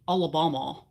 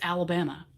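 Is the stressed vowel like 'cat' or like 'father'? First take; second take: like father; like cat. First: The stressed vowel sounds like the 'a' in 'father'. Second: The stressed vowel sounds like the 'a' in 'cat'. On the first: The speaker calls it wrong. "You wouldn't say Alabama" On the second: The speaker calls it right. "It's Alabama"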